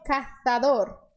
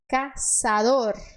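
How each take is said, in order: First: The middle consonant is a TH sound. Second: The middle consonant is a hissing S sound. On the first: This is how speakers from Spain would say it. "com a língua entre os dentes" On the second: This is the Latin American Spanish pronunciation. "a letra Z no espanhol, ela tem som de S"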